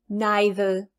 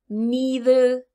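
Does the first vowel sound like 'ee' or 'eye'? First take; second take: eye; ee. First: The first vowel sounds like 'eye'. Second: The first vowel sounds like 'ee'. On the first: "some people will say I" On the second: "with a strong e"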